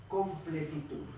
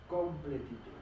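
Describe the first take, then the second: Both takes have the same delivery.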